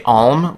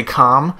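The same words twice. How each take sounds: First: "alm" as ahlm, L sounded. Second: "calm" as kahm, silent L; calm without the L. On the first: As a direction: let the L be heard in "alm". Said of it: "I will pronounce the L". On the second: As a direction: say "calm" with no L at all. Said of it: "I'll say calm". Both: Shown as a demonstration.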